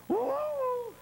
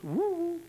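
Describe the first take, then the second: First: Very high falsetto woo from inside; higher echo hoot. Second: High falsetto woo call; high hoot. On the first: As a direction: answer back sweetly in a high falsetto. Voice answers from cave. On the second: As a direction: call out like a hunter hooting into the dark. Hunter calls into cave. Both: Acted.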